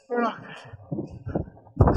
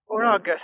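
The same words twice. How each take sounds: First: Slow strained whisper; breathless whisper. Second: Said in the usual way. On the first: Real, not acted. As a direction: gasp it out, winded.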